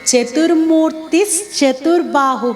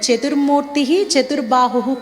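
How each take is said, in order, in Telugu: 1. ఈ రెండు పేర్లు అదనపు sh ధ్వనితో కలిసి పలుకుతారు. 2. ఈ రెండు పేర్లను విడివిడిగా పలుకుతారు, కలిపే ధ్వని లేకుండా. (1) "కలిపినప్పుడు ... అవుతుంది" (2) "విడదీసి పలికేటప్పుడు"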